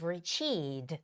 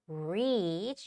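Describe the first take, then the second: First: The vowel is said short. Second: The vowel is said long. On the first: The speaker calls it wrong. "a lot of Koreans would say you've reached, which is wrong" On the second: The speaker calls it right. "You got to make it sound it long"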